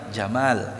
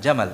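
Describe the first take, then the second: First: The vowel is drawn out long. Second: The vowel is said short. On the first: The speaker calls it right. "Panjang namanya" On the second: The speaker calls it wrong.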